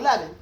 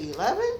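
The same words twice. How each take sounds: First: The pitch falls at the end like a statement. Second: The pitch rises at the end like a question. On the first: The speaker knows the answer. The speaker calls it right. "Just be like, oh" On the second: The speaker is unsure and asking. The speaker calls it wrong. "that means like you're asking if it's eleven"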